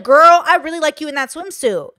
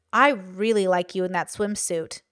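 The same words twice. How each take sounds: First: Higher, louder, bright bestie praise; friendly girl compliment. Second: Low, slow, suggestive compliment; insidious compliment. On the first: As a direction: gush it like hyping up a friend. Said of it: "more like a safety communication". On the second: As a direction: say it a little too slowly, with a hint of menace. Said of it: "which could be, like, insidious". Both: Shown as a demonstration.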